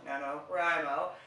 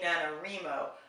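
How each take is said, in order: First: The 'Wri' part sounds like the word 'write'. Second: The 'Wri' part does not sound like 'write'. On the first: The speaker calls it right. "it makes a lot more sense, National Novel Writers Month" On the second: The speaker calls it wrong. "I have apparently been pronounce- mispronouncing NaNoWriMo. I was saying NaNoWriMo"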